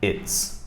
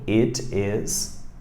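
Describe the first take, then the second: First: The words merge into one short syllable. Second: Two separate words are said in full.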